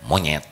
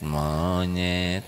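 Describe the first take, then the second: First: It is said in an insulting, offensive tone. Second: It is said in a neutral, inoffensive tone.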